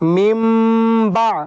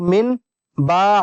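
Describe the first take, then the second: First: The n turns into a nasal m sound. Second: The first word ends with a plain n sound. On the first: The speaker calls it right. "अब पढ़ेंगे मिम मिम बा" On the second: The speaker calls it wrong. "अब मिन बा नहीं पढ़ेंगे"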